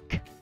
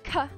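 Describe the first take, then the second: First: The consonant is said alone, without voice. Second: The consonant is followed by a short vowel. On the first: The speaker calls it right. "but instead more like k, not voiced" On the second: The speaker calls it wrong. "So this would not be ka"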